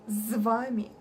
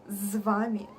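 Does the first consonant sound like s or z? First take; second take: z; z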